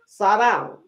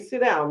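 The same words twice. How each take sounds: First: It is said in a drawled country accent. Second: It is said in a plain standard accent. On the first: "in the country, y'all, ... we say sit down" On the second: "we don't say sit down"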